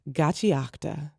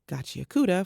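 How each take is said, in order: First: No vowel is heard between k and t. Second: A vowel is heard between k and t. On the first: The speaker calls it right. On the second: The speaker calls it wrong.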